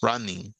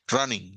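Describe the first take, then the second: First: RUNNING with a very brief break, run-ning; syllables set apart. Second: RUNNING with no break at the double N; syllables run together. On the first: Teacher showing students the brief pause, syllables set apart. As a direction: say "Running" with each syllable given its own push. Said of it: "Es una pausa muy breve". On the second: Teacher showing students what to avoid, syllables run together. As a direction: slide through "Running" without separating its syllables. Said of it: "Running, no". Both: Shown as a demonstration.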